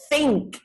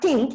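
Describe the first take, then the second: First: The word starts with a soft th sound. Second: The word starts with a plain t sound. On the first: The speaker calls it right. "it's think" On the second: The speaker calls it wrong. "the word is not think"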